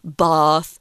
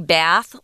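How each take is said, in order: First: It is said with a British vowel. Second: It is said with an American vowel.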